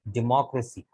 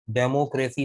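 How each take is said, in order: First: डेमोक्रेसी said di-MAH-kra-si, stress on the second syllable; the right way, डेमोक्रेसी as di-mah-kra-si; डेमोक्रेसी with short i and a, stress on mah; correct pronunciation. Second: डेमोक्रेसी said de-mo-kre-si, every vowel full, rising at the end; the wrong way, डेमोक्रेसी as de-mo-kre-si; डेमोक्रेसी with full e and o sounds, the mistake to avoid; wrong pronunciation. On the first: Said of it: "डेमोक्रेसी नहीं, डेमोक्रेसी". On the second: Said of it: "डेमोक्रेसी नहीं". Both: Shown as a demonstration.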